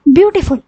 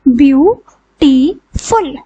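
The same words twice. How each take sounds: First: Said in the usual way. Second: ब्यूटीफुल said slowly, each of its three syllables apart; split into syllables. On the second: Shown as a demonstration. Teacher to students, ब्यूटीफुल slowly in three syllables. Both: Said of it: "तीन syllables हैं इसमें".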